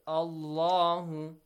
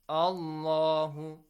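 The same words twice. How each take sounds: Both takes have the same delivery.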